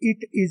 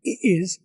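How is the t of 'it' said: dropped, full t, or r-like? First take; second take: full t; dropped. First: The t is said as a full t. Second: The t is dropped completely.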